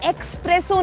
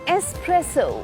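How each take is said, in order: First: The word begins with an 'eks' sound. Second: The word begins with an 'ess' sound. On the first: The speaker calls it wrong. "ये एक्सप्रेसो नहीं है" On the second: The speaker calls it right. "ये एस्प्रेसो"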